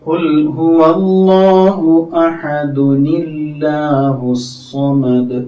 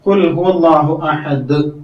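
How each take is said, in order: First: An added 'uni' links ahad into the next word. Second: The recitation stops on a silent final d. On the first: The verse is joined to the next one. "ചേർത്ത് ഓതുകയാണെങ്കിലോ" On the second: The verse is ended at this point. "സുക്കൂനിൽ അവസാനിച്ചു"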